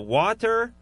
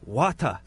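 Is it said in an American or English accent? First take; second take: American; English. First: It is said in an American accent. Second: It is said in an English accent.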